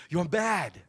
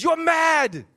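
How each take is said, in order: First: Soft, savored mock British "You're mad.", "mad" falling; quiet British "you're mad". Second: Loud high hammed-up British "You're mad.". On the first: Preacher repeating the British wording to savor it, quiet mock British. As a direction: linger over "You're mad." in a light British voice. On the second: Preacher relishing the British translation, loud mock British. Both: Shown as a demonstration. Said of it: "I love how that sounds".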